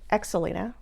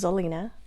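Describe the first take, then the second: First: The name starts with an ex sound. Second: The name starts with a z sound. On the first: The speaker calls it wrong. "the variation I hate the most" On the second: The speaker calls it right. "you pronounce the X like a Z"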